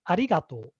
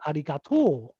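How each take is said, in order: First: It has the standard Tokyo pitch pattern. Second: It has the Osaka regional pitch pattern. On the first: "the correct intonation is arigato" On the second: "in Osaka, people say arigato"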